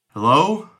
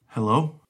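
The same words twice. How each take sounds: First: It is said loudly. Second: It is said softly.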